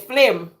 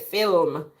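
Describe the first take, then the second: First: The l sound comes before the vowel. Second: The l sound comes after the vowel. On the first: This is how it is said in Jamaica. "In Jamaica, we say flim" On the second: This is how it is said in the UK. "roll the tongue and say film"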